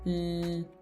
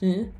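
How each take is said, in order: First: The L sound is held longer. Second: The L sound is short. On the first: The speaker calls it right. "you're going l. You're just holding it" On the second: The speaker calls it wrong. "So instead of going l"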